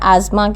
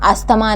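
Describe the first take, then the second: First: The middle is said with a 'z' sound. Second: The middle is said with an 's-th' sound. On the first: The speaker calls it right. "आजमा कहना है" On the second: The speaker calls it wrong. "इसमें हम अस्थमा नहीं कहना है"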